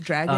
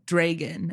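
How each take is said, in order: First: The first vowel is a short A sound. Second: The first vowel is a long A sound. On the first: This is the usual way. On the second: Someone else said it this way.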